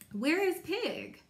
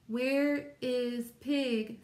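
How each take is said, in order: First: It is read with lively, expressive intonation. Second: It is read in a flat, robotic monotone. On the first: The speaker calls it right. "I want to say" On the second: The speaker calls it wrong. "not ... like a robot ... without expression"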